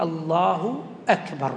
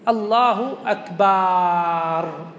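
First: Said in the usual way. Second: "أكبر" ending in a long held "baaar"; مد الباء. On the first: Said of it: "لا بد أن يأتي". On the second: Shown as a demonstration. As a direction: stretch the vowel after the b in "أكبر", very slowly, to "akbaaar". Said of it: "لو مد الباء في أكبر". (مدّ باء "أكبر" مدًّا طويلًا "أكباااار")

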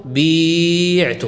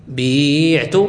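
First: بيعت stretched very slowly with a long ي; slow demo pronunciation. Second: Said in the usual way. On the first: Shown as a demonstration. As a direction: draw out بيعت so the ي is held. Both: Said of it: "إذن فستقول".

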